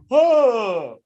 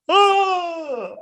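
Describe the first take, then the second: First: A higher, short surprised grunt; imitating a feeble reaction to the hit; mock pained oh. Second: Much higher, wailing mock cry; hammed-up cry. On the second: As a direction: overplay the weak yelp for laughs. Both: Imitating man hit by car.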